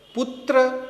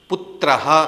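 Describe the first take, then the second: First: The word ends without a final breathy h. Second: The word ends with a final breathy h. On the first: The speaker calls it wrong. "ऐसा नहीं बोलेंगे" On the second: The speaker calls it right. "ऐसा उच्चारण करेंगे"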